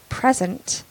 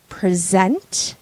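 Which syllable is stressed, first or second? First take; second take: first; second. First: The stress is on the first syllable. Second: The stress is on the second syllable.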